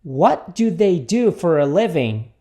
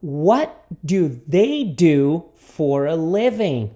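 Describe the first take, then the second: First: Slow but connected question; repeat-after-me model. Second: Very slow, word-by-word question; repeat-after-me model. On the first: Teacher repeats the question for students, slow and connected. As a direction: link the words at a measured pace. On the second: Teacher introduces the question to students, very slowly. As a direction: separate and lengthen each word. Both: Shown as a demonstration. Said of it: "Repita comigo".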